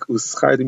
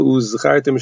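First: The consonant is a voiceless s sound. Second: The consonant is a clear voiced z sound. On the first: It means you should be rewarded. The speaker calls it wrong. "shouldn't sound like uzchartim, you should be rewarded" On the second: It means you should remember. The speaker calls it right. "shouldn't sound like"

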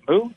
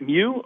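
First: It is said with a plain 'oo' sound, like moo. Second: It is said with a 'yoo' sound, like mew. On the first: "Is it Moo?" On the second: "Isn't it Mew"

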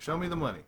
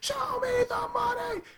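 First: It is said at normal volume. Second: It is shouted loudly.

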